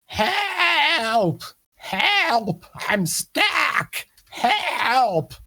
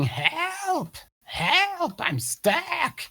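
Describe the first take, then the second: First: High, loud croaky cry for help; yelling toad creature. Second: High-pitched mock yell at normal volume; yelling toad creature. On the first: Acted. Stuck toad person calls up to the adventurers, high panicked yelling. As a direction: yell for help, pitched far up and drawn out. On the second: Game master repeats the trapped toad's cry, high contained yell. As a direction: replay the toad's cry, high but held back. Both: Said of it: "Yeah, he's yelling".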